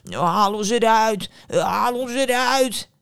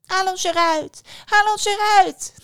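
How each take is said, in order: First: Loud, slow, drawn-out bread voice; calling loaves. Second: High, loud, shrieky little callers; little apple voices. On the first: Bread in the oven calls the girl, slow loud calling. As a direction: bellow it slowly from inside the oven. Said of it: "ze zag dat het geluid uit een oven kwam". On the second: Apples suddenly call to the dazed daughter, high little voices. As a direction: squeal for help as tiny apples. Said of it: "hoorde ze plots stemmetjes". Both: Acted.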